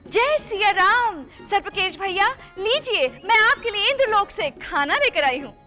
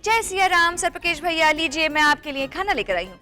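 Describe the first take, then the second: First: It is said in an excited, grand way. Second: It is said in a plain, ordinary way.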